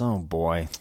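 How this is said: It sounds mildly dissatisfied and reluctant. The speaker wants to stop this topic. "a light sense of dissatisfaction"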